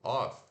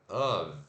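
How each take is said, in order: First: The word ends with an F sound. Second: The word ends with a V sound. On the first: The speaker calls it wrong. "esse O F" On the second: The speaker calls it right. "se pronuncia of, com som de V"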